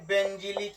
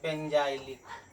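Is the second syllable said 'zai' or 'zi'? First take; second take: zi; zai. First: The second syllable has a short 'i' sound. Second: The second syllable has a long 'ai' sound.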